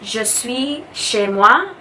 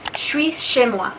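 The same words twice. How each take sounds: First: Je and suis are said as separate words. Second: Je and suis blend quickly into one word. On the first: "instead of" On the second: "it kind of blends together really fast"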